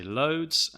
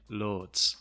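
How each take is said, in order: First: "loads" in a southern English accent. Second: Imitated northern English "lords" vowel; northern English accent. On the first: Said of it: "I am from the south of England". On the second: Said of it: "the speaker is from the north of England". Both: Shown as a demonstration.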